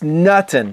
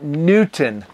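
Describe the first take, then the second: First: The first vowel sounds like 'nut'. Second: The first vowel sounds like 'newt'. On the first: The speaker calls it right. "But yes, Nutton, not Newton Fancy" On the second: The speaker calls it wrong. "not Newton Fancy"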